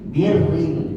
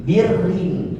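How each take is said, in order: No difference in how they are said.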